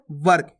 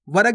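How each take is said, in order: First: वर्क said as one quick syllable, "vark"; quick half "r". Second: वर्क split as "va-rak"; wrong full "ra". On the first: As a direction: run the r straight into the k in वर्क. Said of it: "जल्दी से उच्चारण कर रहे हैं". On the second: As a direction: put a full vowel after the r in वर्क, "varak". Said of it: "भी नहीं पढ़ना". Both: Shown as a demonstration.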